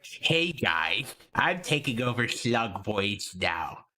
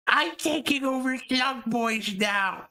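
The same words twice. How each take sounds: First: Slow, lightly put-on announcing voice; a hint of a slow, low put-on character; lightly imitated takeover. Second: High, slow put-on character voice; imitated takeover. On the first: Streamer imagines a takeover announcement to the chat, lightly put-on slow voice. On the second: Streamer imagines a takeover announcement to the chat, high mock voice. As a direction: pitch it way up and stretch it out. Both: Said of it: "just appeared and went".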